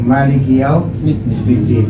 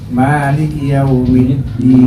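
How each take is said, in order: First: The first vowel of maliki is short. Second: The first vowel of maliki is long. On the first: "mimnya di situ tanpa ma, jadi langsung" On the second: "kalau panjangnya"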